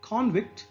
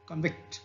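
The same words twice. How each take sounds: First: "convict" stressed on CON, full vowel; noun stress. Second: "convict" stressed on VICT; reduced first syllable, strong second in "convict"; verb stress. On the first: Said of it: "here the stress is on". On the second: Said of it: "and here it is on". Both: Shown as a demonstration.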